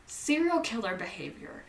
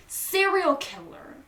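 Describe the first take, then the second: First: Said in the usual way. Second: "Serial killer." higher and louder, stress on "Serial"; emphatic repeat. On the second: Real, not acted. Narrator repeating her verdict on West, emphatic and higher.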